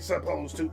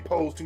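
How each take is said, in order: First: The first syllable of supposed is kept. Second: The first syllable of supposed is dropped. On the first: The speaker calls it right. "You say supposed to" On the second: The speaker calls it wrong. "You don't say pose to"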